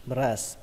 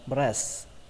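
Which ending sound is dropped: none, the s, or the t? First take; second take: the t; the t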